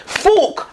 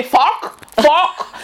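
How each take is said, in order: First: "Fork" with a closer, longer vowel, pitched higher; higher "Fork" with a rounded oo-like vowel; misheard version. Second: Put-on "fuck" as an accented way of saying fork; mum's accented fork. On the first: Retold or imitated. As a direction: say "Fork" high and falling, as the listener echoes it. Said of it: "and you're saying". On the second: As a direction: say "Fuck" for fork, with a short open vowel and no r. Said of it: "you don't even know what she say".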